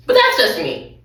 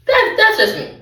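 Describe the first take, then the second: First: Said in the usual way. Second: "That, that's just me" said much higher; higher-pitched aside. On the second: Real, not acted. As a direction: lift "that's just me" up high, playful. Repeated aside, raised.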